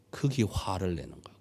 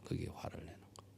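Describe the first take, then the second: First: Said in the usual way. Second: "그게 화를 내는 거예요" in a fast breathy whisper; whispered echo. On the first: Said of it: "repeated as whisper". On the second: Shown as a demonstration. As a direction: whisper the words back as an echo. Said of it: "whispered echo".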